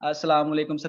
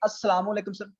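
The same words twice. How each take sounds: First: It is said in a low, sleepy voice. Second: It is said in a lively, energetic voice. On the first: The speaker sounds unprofessional. The speaker calls it wrong. "मैं मतलब कि सोया हुआ मतलब कुछ लोग ऐसे बोलते हैं" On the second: The speaker sounds professional. The speaker calls it right. "आपने वॉइस क्या करनी है कि"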